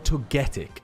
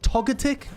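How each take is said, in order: First: The stress is on the second syllable. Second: The stress is on the first syllable. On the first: "the Get" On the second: "The Tog"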